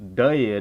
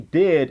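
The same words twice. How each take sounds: First: The word is said in a Southern drawl. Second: The word is said in a plain, neutral accent. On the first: "my southern accent really starts to come out" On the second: "I would say did as"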